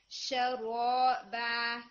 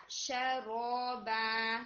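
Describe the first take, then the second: First: شرابا said slowly and loudly, sha colored toward shu; sha turned to shu. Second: شرابا very slow with an open sha, not shu. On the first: Teacher imitates the student's wrong شرابا. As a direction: mimic شرابا with a rounded shu. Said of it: "شین آپ کا را کے fact میں چلا گیا". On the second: Teacher models the correct sha in شرابا. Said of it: "شو نہیں". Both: Shown as a demonstration.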